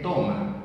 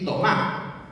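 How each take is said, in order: First: TOMA stressed on its first syllable, TO. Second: TOMÁ stressed on its last syllable, MÁ. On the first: Lecturer contrasting forms for tú and vos, stress on TO. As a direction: hit the O in TOMA, leave the final A light. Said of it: "con el acento en la". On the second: Lecturer contrasting forms for tú and vos, stress on MÁ. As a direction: hit the final Á in TOMÁ, leave TO light. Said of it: "con el acento en la A". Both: Shown as a demonstration.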